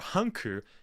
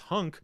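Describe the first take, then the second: First: An extra vowel is added after the final k. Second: The word ends sharply on the k sound. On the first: This is how it is said in Japanese. "as how the Japanese pronounce it" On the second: This is the original form of the name. "in reality it is Hunk"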